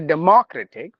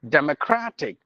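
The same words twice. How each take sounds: First: The stress is on the syllable ma. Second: The stress is on the syllable cra. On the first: The speaker calls it wrong. "like we usually say democratic ... not ma" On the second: The speaker calls it right. "We have the stress at the syllable cra"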